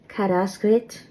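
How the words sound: The final syllable sounds like 'ritz'. "in Munster... It might sound more like Kadaskrit"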